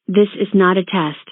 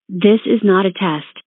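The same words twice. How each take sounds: The two takes are said the same way.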